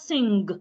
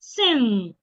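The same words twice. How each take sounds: First: It does not end in a single ng sound. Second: It ends in a single ng sound. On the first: The speaker calls it wrong. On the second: The speaker calls it right.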